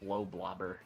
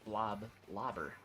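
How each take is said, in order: First: The name is split as blow plus blobber. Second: The name is split as blob plus lobber. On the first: It combines the words blow and blobber. The speaker calls it wrong. "I was saying like blow blobber" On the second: It means something that lobs blobs. The speaker calls it right. "I reread it as blob lobber"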